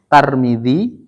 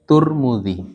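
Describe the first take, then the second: First: The first syllable has the vowel a. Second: The first syllable has the vowel u.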